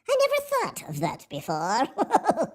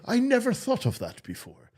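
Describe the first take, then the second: First: It is said in a put-on voice. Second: It is said in his normal voice.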